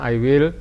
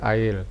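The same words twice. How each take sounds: First: Both words are said fully and separately. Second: The words merge into one short syllable. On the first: "singkatan I will menjadi I will"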